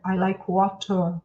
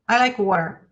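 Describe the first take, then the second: First: It is said in a British accent. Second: It is said in an American accent.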